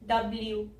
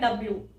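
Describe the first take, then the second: First: A y glide comes before the final oo. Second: No y glide comes before the final oo. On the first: The speaker calls it right. "एंड में यहाँ पे एक य की sound आ रही है।" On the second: The speaker calls it wrong. "अगर आप ये य नहीं बोलेंगे तो ये हो जाएगा"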